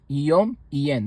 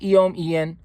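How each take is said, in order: First: The middle consonant is held long, doubled. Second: The middle consonant is short, not doubled. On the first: The speaker calls it right. "You hear the doubling? ... That's the proper way to pronounce it" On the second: The speaker calls it wrong. "Not yom yen"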